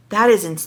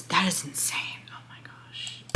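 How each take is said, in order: First: Said in the usual way. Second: Whispered under her breath, winded; breathless whisper. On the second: Real, not acted. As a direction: let it slip out as a spent whisper. Reacting to being out of breath.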